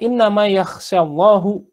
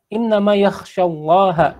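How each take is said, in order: First: The word for God ends with a 'u' vowel. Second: The word for God ends with an 'a' vowel. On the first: God is the one who fears. The speaker calls it wrong. "ketika dibaca innama yakhshallahu, Allahnya menjadi subjek" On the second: God is the one who is feared. The speaker calls it right. "yang benar adalah innama yakhsyallaha"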